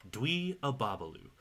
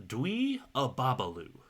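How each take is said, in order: No difference in how they are said.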